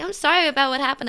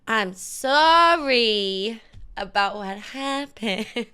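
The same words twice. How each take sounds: First: It is said plainly, without a mean tone. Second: It is said meanly, with drawn-out words. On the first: "You don't sound like you're being mean" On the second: "you gotta sound mean. Make the words longer"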